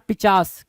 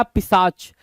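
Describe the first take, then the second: First: पिचास with "ch" in the middle and "s" at the end; mispronunciation. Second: पिशाच with "sh" or "s" in the middle and "ch" at the end; corrected pronunciation. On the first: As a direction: say पिचास as "pi-chaas", sounds swapped. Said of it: "not पिचास". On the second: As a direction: say पिशाच as "pi-shaach". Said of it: "sorry, पिशाच". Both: Shown as a demonstration.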